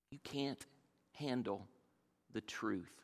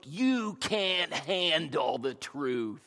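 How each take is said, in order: First: Soft, half-muttered repeat of the line; quiet echo. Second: Slow, weighty movie-star delivery, a light imitation; Jack Nicholson's line. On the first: Shown as a demonstration. Preacher savoring the line again, softly. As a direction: say it again under your breath. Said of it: "Isn't that a great line?". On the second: Preacher quoting the famous courtroom line, slow and weighty. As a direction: lean into each word like the film. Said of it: "you can just see it, his, his look".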